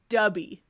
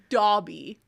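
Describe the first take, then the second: First: The first vowel sounds like the vowel in cup. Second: The first vowel sounds like the vowel in hot. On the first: The speaker calls it wrong. "I really love Dubby" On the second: The speaker calls it right. "instead of Dobby"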